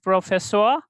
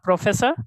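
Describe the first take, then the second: First: The word is pronounced with German sounds. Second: The word is pronounced with English sounds. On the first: The speaker calls it right. "but in German it is professor" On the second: The speaker calls it wrong. "It is not professor in English"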